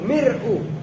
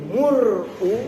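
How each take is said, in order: First: The first vowel is a front i. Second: The first vowel is a rounded u. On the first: "Boleh mir'u" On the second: "boleh mur'u"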